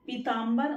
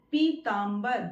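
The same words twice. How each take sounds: First: पीताम्बर begun with a short "pi"; short first vowel. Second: पीताम्बर begun with a long "pee"; long first vowel. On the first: Teacher contrasts two versions, short-vowel पीताम्बर. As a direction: clip the opening of पीताम्बर. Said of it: "ई की मात्रा का". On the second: Teacher contrasts two versions, long-vowel पीताम्बर. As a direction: stretch the opening पी of पीताम्बर. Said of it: "तो पीताम्बर सही है". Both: Shown as a demonstration.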